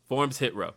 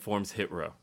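First: The word forms is strongly stressed. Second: The word forms carries no special stress.

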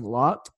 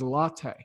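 First: It is said as one short syllable. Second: It is said as two syllables, like latte. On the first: The speaker calls it wrong. "I was saying Lot" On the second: The speaker calls it right. "but it is Lotte. It just kind of, you know, sounds like a coffee drink to me"

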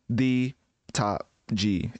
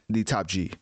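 First: Each word is said separately, with flat inflection. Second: The words flow together with natural inflection. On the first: It imitates old AI splicing separate recorded words. The speaker calls it wrong. "instead of the top G" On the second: It imitates modern AI that sounds like real speech. The speaker calls it right. "it's like the top G"

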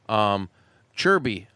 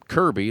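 First: The name begins with a 'ch' sound. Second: The name begins with a 'k' sound. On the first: This is how locals say it. "because I think that's how they pronounce it in Czech" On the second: This is how the spelling reads. "It's spelled Kirby"

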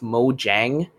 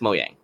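First: The J is sounded like an English J. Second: The J is sounded like a Y. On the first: This is how it looks when read. "when you read it, it's Mojang" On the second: This is how the company itself says it. "the J could be pronounced like Y"

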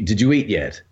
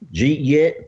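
First: It is said plainly, without the thick accent. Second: It is said in a thick Alabama accent.

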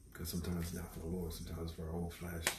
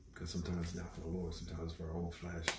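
The two takes are said the same way.

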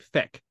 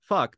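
First: The vowel is an 'eh' sound. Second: The vowel is an 'uh' sound. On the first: "they say feck. It's like an E sound" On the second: "they don't say fuck"

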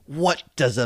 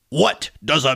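First: It is said in a normal voice. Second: It is said in a put-on angry voice.

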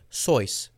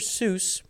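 First: The vowel sounds like the one in choice. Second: The vowel sounds like the one in goose. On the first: The speaker calls it right. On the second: The speaker calls it wrong.

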